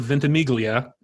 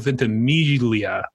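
First: The G is pronounced as a hard sound. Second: The G is silent or soft. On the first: The speaker calls it wrong. "It is not Milo Ventimiglia" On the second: The speaker calls it right. "It's like a soft / silent G"

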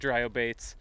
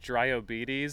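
First: The ending is said plainly, not like 'diabetes'. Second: The ending is said like the word 'diabetes'. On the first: "I wondered the whole time if we were saying it right" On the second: "They'll put weird emphases on the E's in weird ways"

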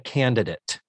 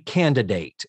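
First: The last syllable has a short, reduced vowel. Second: The last syllable has a long A vowel. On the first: The speaker calls it wrong. "I have consistently referred to that episode as The Candidate" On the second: The speaker calls it right. "Shouldn't it have a long A?"

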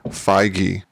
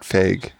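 First: The name has two syllables, fi and gee. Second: The name is said as one single syllable. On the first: The speaker calls it right. "The correct pronunciation is Kevin Feige ... Like fi, like hi fi. Gee" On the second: The speaker calls it wrong. "not Feig"

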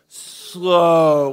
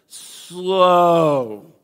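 First: The word is said at normal speed. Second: The word is drawn out slowly.

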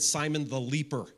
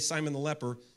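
First: The last word has a long e, like 'leaper'. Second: The last word has a short e, like 'lepper'. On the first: The speaker calls it wrong. "He said Simon the leaper the entire sermon" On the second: The speaker calls it right. "he didn't say Simon the leper"

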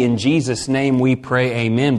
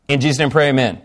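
First: It is said slowly and clearly. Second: It is rushed together very fast.

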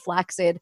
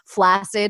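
First: The double c sounds like k followed by s. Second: The double c sounds like a plain s. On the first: This is the older pronunciation. The speaker calls it right. "should be pronounced flaccid; The X sound" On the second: This is the common modern pronunciation. The speaker calls it wrong. "words that we all say incorrectly now, but it's now the standard pronunciation"

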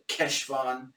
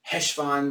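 First: It begins with a hard k sound. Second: It begins with a plain h sound. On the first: "pronounce it with a solid Keshvan" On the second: "just say Heshvan when they're saying it quickly with an H"

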